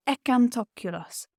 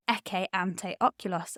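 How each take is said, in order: First: Ekantokulos run together as one word, vowels squished; elided Latin. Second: Ecce ante oculos with each word kept apart, no elision; separate words. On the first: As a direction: glide ecce ante oculos into one quick ekantokulos. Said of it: "something called elision". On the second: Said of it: "I don't say ecce ante oculos". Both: Shown as a demonstration.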